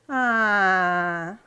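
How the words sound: The 'ah' sounds let down and disappointed. The speaker is let down by something. "um A de desapontamento"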